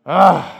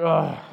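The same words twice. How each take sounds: First: A fed-up groan, much louder; loud grumbling ugh. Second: Grumbling ugh. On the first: Imitating a resentful believer, a louder exasperated groan. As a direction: blurt the annoyed "Ugh" out hard. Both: Retold or imitated. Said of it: "muttering things under your breath like".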